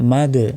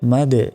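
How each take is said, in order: First: The final d ends with a small bounce. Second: The same.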